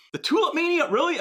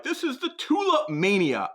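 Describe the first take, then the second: First: "tulip mania" tossed back higher and fast, in disbelief; incredulous. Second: Said in the usual way. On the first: Real, not acted. Host mocks friends' bubble comparison, incredulous and quick. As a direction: scoff at the comparison. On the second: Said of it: "people texting me like".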